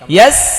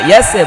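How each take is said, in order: First: The s is held without any added vowel. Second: An extra e vowel follows the s. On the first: The speaker calls it right. "ইয়াস ধরে রাখতে হবে কামড় দিয়ে" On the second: The speaker calls it wrong. "ইয়াস এ বলা যাবে না"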